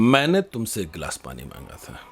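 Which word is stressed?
मैंने. The word मैंने carries the strongest stress. I asked, not someone else. "अगर हमने मैंने पर जोर दे दिया"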